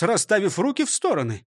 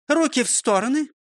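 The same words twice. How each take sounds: First: Said in the usual way. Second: High commanding call. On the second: Acted. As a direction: order the arms out. Teacher's drill command.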